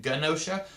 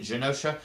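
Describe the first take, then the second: First: "Genosha" said guh-NO-shuh, hard G; hard-G pronunciation. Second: "Genosha" said zhuh-NO-shuh, soft G; soft-G pronunciation. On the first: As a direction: give "Genosha" the G of "go". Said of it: "I've always pronounced it". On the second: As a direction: give "Genosha" the G of "genre". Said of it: "they pronounced it Genosha". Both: Shown as a demonstration.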